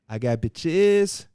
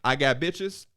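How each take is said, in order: First: The phrase is slowly drawn out and stretched. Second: The phrase is said at a normal, quick pace. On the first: "to stretch this line" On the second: "Instead of saying"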